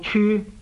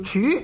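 First: The word is read in the departing tone. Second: The word is read in a non-departing tone. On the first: The word is used as a noun, meaning a place or office. "凡是做名词用的呢都是读做处" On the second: The word is used as a verb. "但是动词用的呢咁呢就读做处，又不能读做处，所以呢处理不能读去声"

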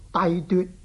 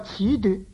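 First: The first syllable is pronounced dai. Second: The first syllable is pronounced chi. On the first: The speaker calls it wrong. "讀做帝奪" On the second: The speaker calls it right. "這個恥奪的恥字"

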